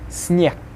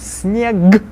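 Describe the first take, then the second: First: The final consonant is voiceless. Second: The final consonant is voiced.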